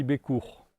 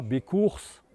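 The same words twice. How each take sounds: First: "Bécourt" ending on the open "our" sound; final consonant silent. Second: "Bécourse" with the final s pronounced; final S sounded. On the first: Guide giving visitors the village name, last consonant silent in "Bécourt". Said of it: "on dit Bécourt". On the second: Guide showing visitors the wrong village name, final s sounded in "Bécourse". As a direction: say "Bécourse", hissed s at the end. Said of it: "Donc on ne dit pas". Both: Shown as a demonstration.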